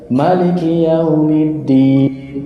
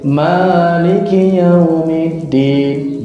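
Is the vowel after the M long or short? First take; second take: short; long. First: The vowel after the M is short. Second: The vowel after the M is long. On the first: "dibaca pendek" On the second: "Dibaca panjang juga boleh"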